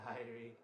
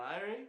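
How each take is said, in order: First: "Irie." answered low and softer, settled; reply "Irie." calmly, like a confirmation; answering Irie. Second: "Irie?" asked with a rising question tune; asking Irie. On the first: Answers his own question. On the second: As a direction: ask "Irie?" as if checking with the viewer. Asks himself a question. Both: Acted.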